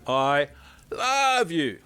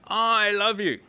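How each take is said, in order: First: The stress is on the word love. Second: The stress is on the word I.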